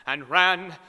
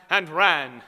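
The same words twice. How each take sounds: The two takes are said the same way.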